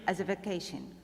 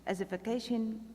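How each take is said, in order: Both takes have the same delivery.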